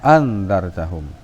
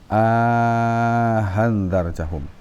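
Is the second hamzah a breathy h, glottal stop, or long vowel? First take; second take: glottal stop; breathy h. First: Both glottal stops are fully pronounced. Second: The second glottal stop sounds halfway to h. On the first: "yang tahqiq tadi ... Arti hidup dua hamzahnya" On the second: "jadi hamzah yang kedua ada suara ha sedikit"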